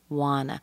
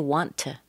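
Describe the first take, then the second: First: The two words are joined into one reduced word. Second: Both words are said fully and separately. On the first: "The want plus the to is very commonly connected together. You get wanna" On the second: "You can say want to. There's no problem with that. In fact, that's very correct"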